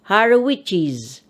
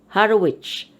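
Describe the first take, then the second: First: The name ends with an added extra syllable. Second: The name ends without any added syllable. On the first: "And you read it as Harawichis" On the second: "the popular way is Harwich, just an apostrophe after Zay"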